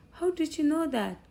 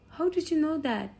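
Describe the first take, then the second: First: High, amazed "How" up top; mild surprise, higher voice; surprised question. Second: Pitched up high in surprise; mild surprise, higher voice; surprised question. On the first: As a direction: caught off guard a second time. Dad surprised again. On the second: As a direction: genuinely caught off guard, how did he know. Dad surprised son guessed. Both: Retold or imitated.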